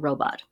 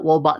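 First: The first R is a clear, full R. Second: The first R sounds like a W. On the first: The speaker calls it right. "Say we're working on the R sound" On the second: The speaker calls it wrong. "it comes out wobot sometimes"

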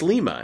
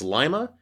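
First: It is pronounced the Peru way. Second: It is pronounced the Ohio way. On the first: It names the city in Peru. "in Peru, it's Lima" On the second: It names the city in Ohio. "In Ohio, it's Lima"

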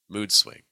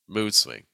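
The two takes are said the same way.

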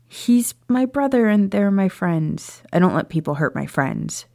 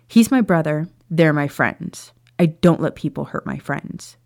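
First: It is said softly, without much force. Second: It is said firmly, with more force.

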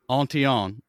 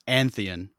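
First: The name is pronounced the French way. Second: The name is pronounced the American way. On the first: "If it's the French pronunciation" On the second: "if it's been Americanized"

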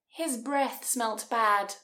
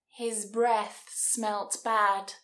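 First: It is said at normal speed. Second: It is said at a slower speed.

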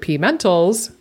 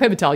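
First: The name is split into a letter and word. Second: The name is said as one whole word. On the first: The speaker calls it wrong. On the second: The speaker calls it right.

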